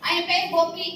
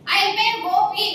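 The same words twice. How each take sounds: First: Said in the usual way. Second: ఆయన పేరు Gopi spelled out slowly and louder; deliberate accusing emphasis; slow emphatic naming. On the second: Real, not acted. Naming the officer to camera.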